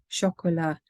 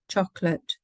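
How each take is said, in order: First: It is said with French pronunciation. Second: It is said with English pronunciation. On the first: "and then the target language" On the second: "the English pronunciation of the word"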